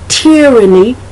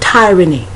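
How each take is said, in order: First: The first vowel is a short I sound. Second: The first vowel is a long I sound. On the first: "the Y being the sh- the short I" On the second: "I've heard the long I"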